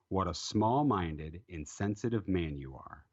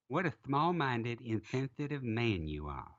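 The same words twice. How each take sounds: First: It is read in the speaker's normal voice. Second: It is read in a put-on character voice.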